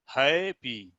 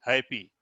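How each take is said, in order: First: happy stretched into two distinct beats; syllable by syllable. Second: Said in the usual way. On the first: Shown as a demonstration. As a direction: draw out happy as hai, then pee. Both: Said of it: "देखेंगे है और पी".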